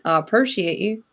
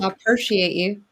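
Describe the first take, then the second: First: It is said in a Southern American accent. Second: It is said in the speaker's plain accent.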